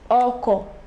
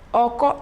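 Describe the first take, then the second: First: The tone goes from mid to low. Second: The tone goes from mid to high.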